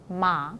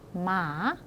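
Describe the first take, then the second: First: The pitch rises, then simply falls at the end. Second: The pitch dips, then rises slightly at the end. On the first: "아니면 그냥 내리는 사람이 있어요" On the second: "물음표 모양으로 갔다가 살짝 올려서"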